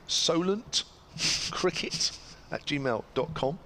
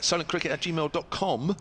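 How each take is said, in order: First: It is said slowly and deliberately. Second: It is said at a normal pace.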